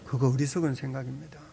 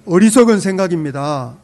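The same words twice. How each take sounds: First: Said in the usual way. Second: Loud, punched declaration to the neighbour; loud firm declaration. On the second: Shown as a demonstration. Pastor urges the congregation to tell their neighbour, loudly firm. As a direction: say it out loud like a verdict. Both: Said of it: "옆 사람에게 한마디 하시죠".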